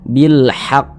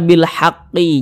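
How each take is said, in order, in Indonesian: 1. Frasa berhenti pada huruf qaf tanpa vokal. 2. Huruf qaf terakhir diikuti vokal 'i'. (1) "Tapi kita baca bil haqq. huruf qafnya ini kita sukunkan atau kita matikan" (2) "jangan kita baca bil haqqi, jangan"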